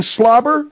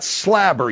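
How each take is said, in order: First: Said in the usual way. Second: "slabber" with a flat A in place of the O of slobber; slabber pronunciation. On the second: Retold or imitated. Host questioning the Father's word, "slabber" with an A vowel. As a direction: say "slabber", querying the odd vowel. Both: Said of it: "You mean slobber?".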